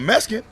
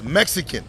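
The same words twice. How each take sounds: First: The word is said in an altered, casual pronunciation. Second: The word is said in its standard pronunciation. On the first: This way of saying it is offensive. The speaker calls it wrong. "don't call me a Mexican" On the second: This is the respectful way to say it. The speaker calls it right. "pronounce the shit the way it's supposed to be pronounced"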